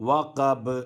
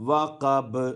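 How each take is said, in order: No difference in how they are said.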